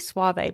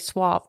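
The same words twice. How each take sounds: First: It is said with a Spanish pronunciation. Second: It is said with an American pronunciation.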